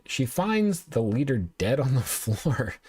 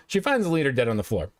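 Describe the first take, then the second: First: Slow down and crack up by the end; stifled laughing. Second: Said in the usual way. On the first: Real, not acted. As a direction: laugh breaking into the last words. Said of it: "I'm not laughing 'cause it's funny".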